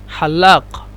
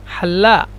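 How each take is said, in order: The two takes are said the same way.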